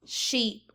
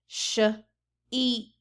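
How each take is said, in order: First: Said in the usual way. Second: "Sh-eep" split into sh and a long eep; segmented sounds. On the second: Shown as a demonstration. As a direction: stretch the word apart as Sh-eep. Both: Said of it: "let's take a look right here".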